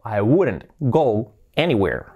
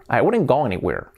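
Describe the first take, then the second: First: Slow, separated words; slow model sentence. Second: Said in the usual way. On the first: Shown as a demonstration. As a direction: spell out the sentence slowly for learners. Teacher models sentence slowly, then naturally. (frase modelo, despacio y separada)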